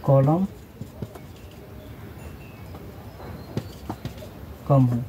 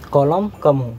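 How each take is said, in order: First: column कम हो spaced out word by word with long pauses; slow dictation. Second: कम hit louder with a falling pitch in column कम हो; stress on कम. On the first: (धीरे-धीरे रुक-रुक कर बोलना) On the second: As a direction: punch the word कम to drive the point home. (कम शब्द पर ज़ोर) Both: Shown as a demonstration.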